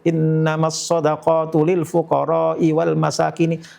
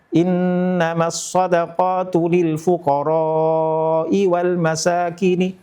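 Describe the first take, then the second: First: The vowel in fuqara'i is held only briefly. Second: The vowel in fuqara'i is clearly drawn out. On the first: The speaker calls it wrong. "membaca kurang panjang saja ... Lil fuqara'i dibaca dua harokat" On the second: The speaker calls it right. "Dibaca panjang itu"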